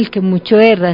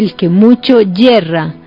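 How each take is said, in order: First: The last word begins with a plain vowel. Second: The last word begins with a y sound. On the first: The speaker calls it wrong. "No se dice el que mucho erra" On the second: The speaker calls it right. "se dice el que mucho yerra. Mire que es diferente"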